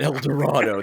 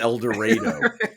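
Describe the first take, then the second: First: It uses the standard, non-local pronunciation of the name. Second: It uses the local Kansas pronunciation of the name. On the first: This is how outsiders would say it. The speaker calls it wrong. "It's not El Dorado" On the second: This is how the town's residents say it. The speaker calls it right. "It is El Dorado"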